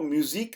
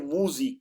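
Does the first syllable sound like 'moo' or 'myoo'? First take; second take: myoo; moo. First: The first syllable sounds like 'myoo'. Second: The first syllable sounds like 'moo'. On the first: The speaker calls it wrong. "इसको म्यूजिक नहीं कहना" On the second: The speaker calls it right. "बल्कि मूजिक कहना है"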